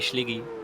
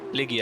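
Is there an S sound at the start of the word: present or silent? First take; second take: present; silent. First: The word begins with an S sound. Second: The word begins without an S sound. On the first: The speaker calls it wrong. "saying Schliggy instead of Liggy" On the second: The speaker calls it right. "you don't pronounce the S if there's a hey"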